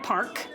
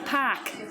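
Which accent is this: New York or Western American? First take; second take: Western American; New York. First: The r is pronounced after the vowel. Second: The r is dropped and the vowel is long. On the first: "five words on here that I would pronounce as a Western American" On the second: "how a New Yorker would say it"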